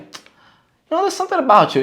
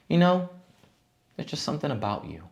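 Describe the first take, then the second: First: It sounds playful and teasing. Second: It sounds sincere and complimentary.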